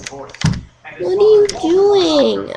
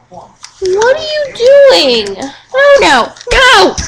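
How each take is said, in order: First: Said in the usual way. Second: High, slow alarmed question; sudden alarm at the dog. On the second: Real, not acted.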